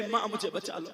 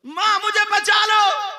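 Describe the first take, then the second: First: Said in the usual way. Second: Higher, louder, slower plea for help; desperate cry. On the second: Acted. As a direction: cry out to mother in a panic. Girl begs mother, cried out.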